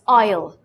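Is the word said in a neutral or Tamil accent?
Tamil. It is said in a Tamil accent. The speaker calls it wrong. "If you go to Tamil Nadu, ... some people pronouncing it as oil, which is wrong"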